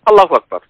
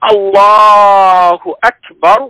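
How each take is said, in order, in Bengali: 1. বাক্যটি ছোট করে ও দ্রুত বলা হয়। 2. বাক্যটি ধীরে ও দীর্ঘ করে টেনে বলা হয়।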